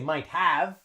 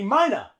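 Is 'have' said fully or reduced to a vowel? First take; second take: full; reduced. First: Both words are said fully and separately. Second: Have is reduced to a weak vowel after might. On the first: The speaker calls it wrong. "here we don't say might have" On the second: The speaker calls it right. "We say he mighta"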